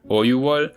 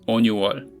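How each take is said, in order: First: No n sound follows the first vowel. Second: An n sound follows the first vowel. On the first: This is the form one would expect. The speaker calls it wrong. "which you would expect to be" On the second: This is the actual form. The speaker calls it right. "in reality it comes out as"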